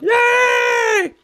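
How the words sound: It is said in a Kermit the Frog voice.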